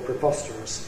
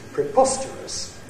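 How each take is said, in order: First: The pitch falls from low on the stressed syllable. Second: The pitch falls from high on the stressed syllable. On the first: "Low fall" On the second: "With a high fall, it sounds like this"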